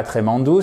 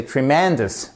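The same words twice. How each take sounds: First: Tremendous said the French way, tré-men-dou, no stress, final s dropped; tremendous flat and French, ending in -dou; wrong French way. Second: Tremendous as tri-MEN-dous, stress on MEN, English r; right English stress. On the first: Teacher showing the mistake to avoid, Frenchified. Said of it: "C'est pas tremendous". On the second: Teacher giving the correct model, English stress. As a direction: punch the middle of tremendous. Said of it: "c'est tremendous". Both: Shown as a demonstration.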